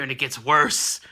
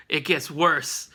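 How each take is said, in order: First: Said in the usual way. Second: Slow, low, ominous "It gets worse"; slow ominous repeat. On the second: Shown as a demonstration. Recapping the comic for viewers, slow ominous. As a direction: drag out "It gets worse" for drama.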